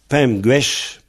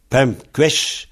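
First: The second word begins with a soft G sound. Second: The second word begins with a hard K sound. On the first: "on écrit pem guesh" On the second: "on prononce"

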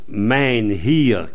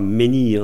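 First: Menhir is said with a Breton pronunciation. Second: Menhir is said with a French pronunciation. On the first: The speaker calls it right. "En breton, on prononce menhir" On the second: The speaker calls it wrong. "on ne prononce pas menhir en breton"

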